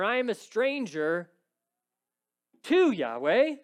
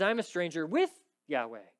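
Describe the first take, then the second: First: "to" said as the wrong word, louder and higher; "to Yahweh" marked as the reading David does not use; wrong preposition. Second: "with" stressed and held, the right preposition. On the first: Preacher shows the wrong wording, stressing "to". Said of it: "He doesn't say that". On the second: Preacher shows the right wording, stressing "with". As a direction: lean on "with". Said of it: "That's not what he says". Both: Shown as a demonstration.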